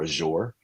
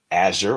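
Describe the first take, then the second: First: AZURE said as a-ZHOOR; AZURE ending in a long ZHOOR; alternative pronunciation. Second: AZURE said as AZH-er; AZURE with a weak second syllable; first pronunciation. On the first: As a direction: stress the second syllable of AZURE, a-ZHOOR. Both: Shown as a demonstration. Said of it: "however you wanna say it".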